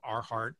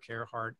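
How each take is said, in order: First: The first syllable sounds like car. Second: The first syllable sounds like care. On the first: This is how people often misread the name. The speaker calls it wrong. "So I heard a lot of" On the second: This is the pronunciation the owner intends. The speaker calls it right. "that would kind of force you to say air"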